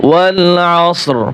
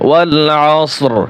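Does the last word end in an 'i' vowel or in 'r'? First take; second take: r; r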